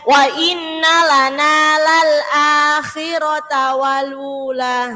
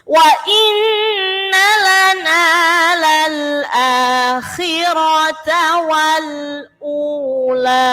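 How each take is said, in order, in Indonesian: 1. Kata terakhir disambung tanpa u penuh. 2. Kata terakhir dipisah dengan u penuh. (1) "banyak sekali yang baca" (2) "Sempurnakan bunyinya u"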